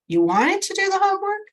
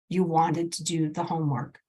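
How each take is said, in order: First: The voice rises at the end. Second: The voice falls at the end. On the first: It is a question. The speaker calls it wrong. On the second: It is a statement. The speaker calls it right. "we want to inflect down"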